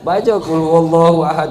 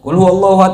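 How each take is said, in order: First: It is recited at an unhurried pace. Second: It is recited very quickly and rushed. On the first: The speaker calls it right. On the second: The speaker calls it wrong.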